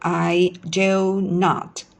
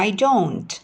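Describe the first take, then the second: First: It is said as two full separate words. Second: It is said as one contracted word. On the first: "kita ucapkan no, I do not" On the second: "Kata do not biasanya diucapkan sebagai don't"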